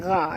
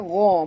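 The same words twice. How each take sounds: First: The gh sound is light and thin. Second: The gh sound is heavy and thick. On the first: The speaker calls it wrong. "bukan gha ya" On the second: The speaker calls it right. "Ini adalah huruf tebal ya"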